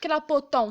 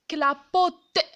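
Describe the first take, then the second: First: The word ends with a nasal on vowel. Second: The word ends with a plain t sound. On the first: The speaker calls it wrong. "Je vais pas dire clapoton" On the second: The speaker calls it right. "je vais dire clapote"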